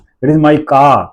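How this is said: The stress falls on the word car. "तो वहां कार पे जोर लग रहा है"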